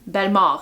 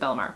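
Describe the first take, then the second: First: The name is pronounced with French sounds. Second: The name is pronounced with English sounds. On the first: This is the family's own pronunciation. "is actually how you pronounce my last name" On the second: This is an acceptable casual pronunciation. "you guys can pronounce it"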